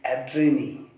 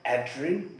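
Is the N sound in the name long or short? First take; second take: long; short. First: The N sound in the name is lengthened. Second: The N sound in the name is short. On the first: "according to the right pronunciation, it would be Adrienne because there is double N. So N sound would little uh, elongate" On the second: "Some people call her Adrienne, which is also right"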